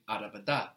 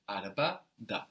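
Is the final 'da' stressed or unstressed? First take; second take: stressed; unstressed. First: The final syllable da carries the stress. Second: The final syllable da is left unstressed. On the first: It means in the car. The speaker calls it wrong. "So you will not say araba da. That means in the car" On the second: It means the car as well. The speaker calls it right. "it's a separate word. ... So it's a very small change in accent"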